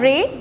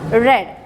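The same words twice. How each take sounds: First: It is pronounced as the present-tense form. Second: It is pronounced as the past-tense form. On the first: The action happens now or habitually. "First one read" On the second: The action happened in the past. "the next is read"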